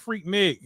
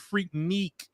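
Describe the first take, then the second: First: The second syllable has a short 'i' vowel. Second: The second syllable has a long 'ee' vowel. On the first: The speaker calls it right. "ain't even saying it right. Freak Nick, honey" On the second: The speaker calls it wrong. "They even said it wrong"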